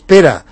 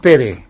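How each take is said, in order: First: The name ends with an a-like vowel. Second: The name ends with a clear e vowel. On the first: The speaker calls it right. "se pronuncia Pera" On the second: The speaker calls it wrong. "no me digas Pere"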